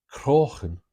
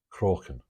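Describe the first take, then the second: First: Croghan said loud and high, with a throaty ch as in Irish "Crochan"; Irish pronunciation of Croghan. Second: Said in the usual way. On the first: Retold or imitated. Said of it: "in her Irish accent". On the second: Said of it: "rudimentary translation".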